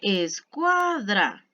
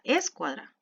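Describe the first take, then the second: First: The stress is on the middle syllable. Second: The stress is on the first syllable. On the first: The speaker calls it right. "está el acento en la penúltima sílaba" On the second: The speaker calls it wrong. "el mayor volumen en es"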